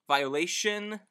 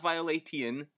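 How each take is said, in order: First: The middle consonant is said as sh. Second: The middle consonant is said as t. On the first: The speaker calls it right. "T followed by two vowels makes the sh sound" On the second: The speaker calls it wrong. "Not violatian"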